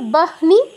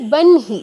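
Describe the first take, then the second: First: The h sound comes before the n. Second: The h sound comes after the n. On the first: The speaker calls it wrong. "হওয়া উচিত ছিল বাহনি" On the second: The speaker calls it right. "ন আগে, হ পরে"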